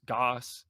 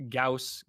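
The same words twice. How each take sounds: First: Goss rhyming with "boss"; vowel like "aw". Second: Gauss rhyming with "house"; vowel like "ow". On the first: Comparing two pronunciations, Goss said with an "aw". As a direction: say Goss as "GAWSS". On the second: Comparing two pronunciations, Gauss said with an "ow". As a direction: say Gauss as "GOWSS". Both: Shown as a demonstration. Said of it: "which one's the proper one".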